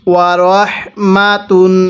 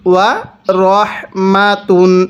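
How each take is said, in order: No difference in how they are said.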